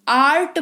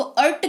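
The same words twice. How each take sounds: First: आर्ट with a long open "aa"; correct long vowel. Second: अर्ट with a short "uh", like "urt"; wrong short vowel. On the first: Teacher correcting the reading, long open "aa". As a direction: say आर्ट as "aart", vowel held. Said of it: "आर्ट पढ़ते हैं ना". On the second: Teacher asking why not read it so, short "uh". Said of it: "इसको अर्ट क्यों नहीं पढ़ा". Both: Shown as a demonstration.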